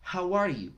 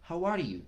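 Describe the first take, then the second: Both takes have the same delivery.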